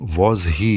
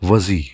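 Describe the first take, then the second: First: The h in he is fully pronounced. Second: The h is dropped and the words run together. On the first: "instead of saying" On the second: "they use"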